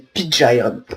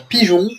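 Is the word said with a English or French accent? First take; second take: English; French. First: It is said with an English accent. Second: It is said with a French accent.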